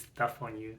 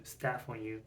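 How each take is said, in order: First: "stuff" with the vowel of "cup", a slip for staff; "stuff" said by mistake with the "uh" vowel; misread word. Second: "staff" with the open a of "cat", a self-correction; "staff" said right after the slip, a as in "cat"; corrected word. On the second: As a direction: fix it to "staff", vowel as in "cat". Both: Real, not acted.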